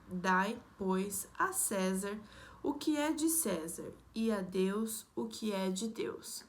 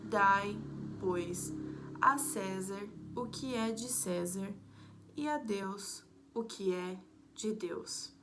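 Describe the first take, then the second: First: It is read at a normal pace. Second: It is read slowly, with more pauses.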